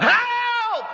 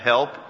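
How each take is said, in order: First: The word is drawn out and loud. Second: The word is said briefly.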